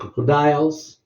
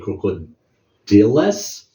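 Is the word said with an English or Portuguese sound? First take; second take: English; Portuguese. First: It is said with English sounds. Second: It is said with Portuguese sounds. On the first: The speaker calls it right. "You have to understand the English sound" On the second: The speaker calls it wrong. "in my first language, we used to say crocodiles, but because it is Portuguese sound"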